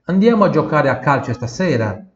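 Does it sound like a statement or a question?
question. It is said with a question tune.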